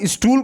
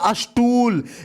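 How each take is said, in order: First: The word starts directly with the st cluster. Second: An extra vowel is added before the st cluster. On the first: The speaker calls it right. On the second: The speaker calls it wrong.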